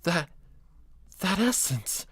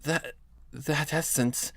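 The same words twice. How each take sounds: First: Put-on higher, smooth, gentle Fluttershy-like girl; soft, high, timid Fluttershy-style delivery. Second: Put-on soft, high, stunned young woman; breathy disbelief, not yet the right voice; the rejected take, soft and stunned; wrong voice. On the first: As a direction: keep it high and smooth, shyly stunned. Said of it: "It's high, but it's smooth". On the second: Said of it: "that's not the right voice".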